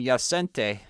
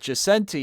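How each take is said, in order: First: The name is pronounced with Polish sounds. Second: The name is pronounced with English sounds. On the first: This is the name's original form. "it'd be the right way because it's Polish" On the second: This is the form used day to day. "is how I go by in English"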